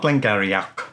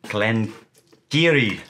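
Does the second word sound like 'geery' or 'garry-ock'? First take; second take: garry-ock; geery. First: The second word sounds like 'garry-ock'. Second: The second word sounds like 'geery'. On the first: The speaker calls it wrong. "Not Glen Garioch" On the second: The speaker calls it right. "Glen Geary, or something like that"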